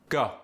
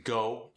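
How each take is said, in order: First: South African "Go" with an aw-like vowel; South African accent. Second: Said in the usual way. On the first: Shown as a demonstration. Teaching the South African long O, accented "Go". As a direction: open "Go" towards ah, South African. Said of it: "gets the ah sound". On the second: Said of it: "The long O sound".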